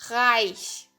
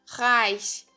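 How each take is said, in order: No difference in how they are said.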